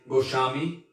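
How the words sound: The middle consonant is a sh sound. "This is a Bengali pronunciation"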